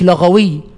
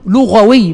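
First: The first vowel is an 'a' sound. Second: The first vowel is a 'u' sound. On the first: The speaker calls it wrong. "يبقى بفتح اللام من اللغو" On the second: The speaker calls it right. "هي لغوي بضم اللام"

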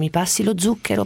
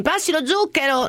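First: It is said in a calm, polite tone. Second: It is said in a harsh, aggressive tone. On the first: A proper, well-spoken request. The speaker calls it right. "noi dovevamo dire" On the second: A rude, hostile request. The speaker calls it wrong. "se si diventava aggressivi"

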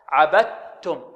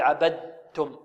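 First: The d merges fully into a pure doubled t. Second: A voiced d sound is heard before the t. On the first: The speaker calls it right. "لابد أن نأتي بها تاء خالصة ليس فيها رائحة الدال. هكذا" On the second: The speaker calls it wrong. "يأتي بالدال فيها الجهر، فيها صفة الجهر أو فيها شيء من الدال، يقول عبدتم، وهذا خطأ"

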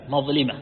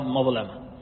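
First: The vowel after the l is i. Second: The vowel after the l is not i. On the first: This is the widely known form. "بكسر اللام على المشهور" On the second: This is a less common recorded form. "وإن كان هناك من ضبطها"

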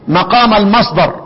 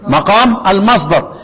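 Both takes have the same delivery.

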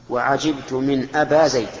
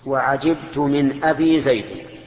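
First: The word before Zayd ends in long a. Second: The word before Zayd ends in long i. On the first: The word always keeps the same ending. The speaker calls it wrong. "هذا القصر" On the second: The word is inflected with letters. The speaker calls it right. "هذا الإسماء، رفعناها بالواو ونصبناها بالألف وجرناها بالياء"

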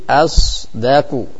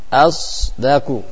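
No difference in how they are said.

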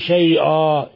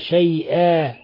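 First: The consonants are pronounced heavy and thickened. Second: The consonants are pronounced light and thin. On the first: The speaker calls it wrong. "لا تقولي شيئا" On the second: The speaker calls it right. "وإنما شيئا"

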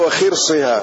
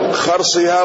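First: The first consonant is followed by an 'i' vowel. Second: The first consonant is followed by an 'a' vowel. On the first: It names the thing that is estimated. "وكسرها" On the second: It names the act of estimating. "بفتح الخاء"

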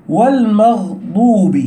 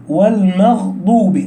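The two takes are said the same way.

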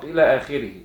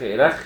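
First: It is read out as the full phrase. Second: It is read as one clipped syllable. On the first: The speaker calls it right. "وتنطق إلى آخره" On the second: The speaker calls it wrong. "لو حد نطقها وإلخ إلخ ... يبقى غلطان"

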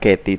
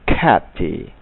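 First: The k is soft, without a puff of air. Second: The k bursts out with a puff of air. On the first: The speaker calls it wrong. "Tidak bisa mengucapkan Katy" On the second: The speaker calls it right. "tetapi Katy"

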